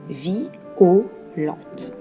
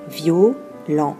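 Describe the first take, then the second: First: The word is said in three separate syllables. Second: The word is said in two syllables. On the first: "la diérèse avec le mot violente qui se prononcera vi-o-lente" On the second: "Normalement, ce vers contient neuf syllabes"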